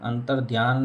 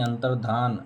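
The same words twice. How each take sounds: First: अंतर्ध्यान with a y glide after ध; teacher showing faulty अंतर्ध्यान, dhya; wrong form अंतर्ध्यान. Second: अंतर्धान with plain dhaan, no y; teacher modelling अंतर्धान without the य glide; correct form अंतर्धान. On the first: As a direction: say अंतर्ध्यान, sounding dhyaan at the end. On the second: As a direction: say अंतर्धान, ending in धान. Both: Shown as a demonstration. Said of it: "अंतर्ध्यान नहीं".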